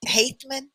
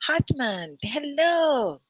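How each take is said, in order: First: Hathman said with a long a, HAYTH-man; retry Hathman as HAYTH-man, checking it; second try at the name. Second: Hathman said with a short a, HATH-man; first try at the name. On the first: Greeting a student, a corrected attempt at Hathman. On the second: Greeting a student, a first attempt at Hathman. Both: Shown as a demonstration. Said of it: "did I say it right?".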